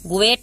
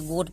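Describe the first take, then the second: First: The vowel is split into two syllables. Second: The vowel is said as one syllable. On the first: The speaker calls it wrong. "गोएट नहीं पढ़ेंगे" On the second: The speaker calls it right. "गोट पढ़ेंगे"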